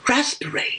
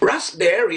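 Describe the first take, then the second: First: It is said in a British accent. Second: It is said in an American accent. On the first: "Pero kung British, ang gusto mo" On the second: "It's American pronunciation"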